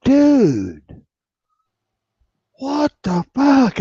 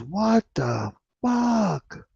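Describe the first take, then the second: First: Much higher and louder, a stunned shout; shocked yell. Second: Drawn-out, much higher disbelieving what the fuck, said slowly; shocked outburst. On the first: Cop friend reacting to the accusation, stunned yell. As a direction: yell it like you can't believe it. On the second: Cop friend hearing the record, slow shocked disbelief. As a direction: stretch it out in pure disbelief. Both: Retold or imitated.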